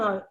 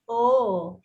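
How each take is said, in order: First: The O vowel is short. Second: The O vowel is long. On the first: The speaker calls it wrong. "They're saying the short O" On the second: The speaker calls it right. "the long O"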